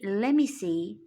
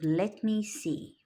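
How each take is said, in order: First: Let me is blended into one reduced word. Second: Let and me are said as separate full words. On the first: "when we say" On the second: "instead of"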